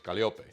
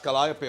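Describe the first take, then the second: First: The name is said with a Spanish pronunciation. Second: The name is said with an English pronunciation. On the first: "in Espanol it's Panama, obviously, so it's Calliope" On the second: "that's Calliope on English"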